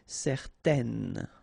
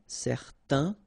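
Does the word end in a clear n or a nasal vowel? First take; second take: clear n; nasal vowel. First: The word ends in a clear n. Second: The word ends in a nasal vowel. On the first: It is the feminine form. "you will pronounce it n" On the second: It is the masculine form. "so it's nasal in your nose"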